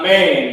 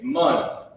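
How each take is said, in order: First: The vowel sounds like the a in cat. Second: The vowel sounds like the u in cup. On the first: The speaker calls it wrong. "It's not man" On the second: The speaker calls it right. "it's mun"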